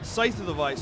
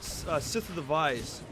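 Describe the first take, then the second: First: The first word has a long 'eye' vowel. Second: The first word has a short 'i' vowel. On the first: The speaker calls it right. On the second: The speaker calls it wrong. "I always say that wrong"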